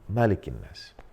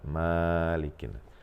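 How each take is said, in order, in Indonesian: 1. Vokal pertama dari Malikin pendek. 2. Vokal pertama dari Malikin panjang. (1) "dibaca pendek" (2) "tidak dibaca"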